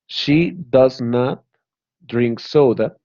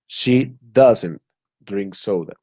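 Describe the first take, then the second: First: The negative is said in full, 'does not'. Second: The negative is contracted to 'doesn't'.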